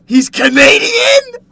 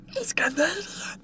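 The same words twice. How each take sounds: First: Very high, loud, slow shouted question; shocked outburst. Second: High, soft whispered aside; secretive whisper. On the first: Streamer reacts to chat saying he's Canadian, loud shocked shout. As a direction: cry it out in mock disbelief. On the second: Streamer repeats chat's remark that he's Canadian, whispered. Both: Acted.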